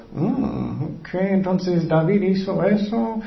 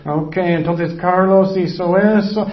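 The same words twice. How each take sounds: First: Slow, musing put-on voice; Jesus writing sins. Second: Slow, drawn-out mock note-taking; lightly voiced musing while writing; Jesus writing sins. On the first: Jesus writing David's sin on the ground, slow musing. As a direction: draw it out as if noting it down. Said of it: "Porque él estaba escribiendo". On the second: Jesus writing Carlos's sin on the ground, lightly acted musing. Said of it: "Él escribió".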